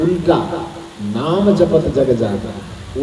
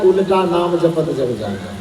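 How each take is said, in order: First: उल्टा set apart, then slow नाम जपत जग जाना; pause after उल्टा. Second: Said in the usual way. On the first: Shown as a demonstration. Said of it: "उल्टा के बाद अल्प विराम". (उल्टा के बाद विराम, फिर नाम जपत जग जाना) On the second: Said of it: "ये नहीं कहा कि".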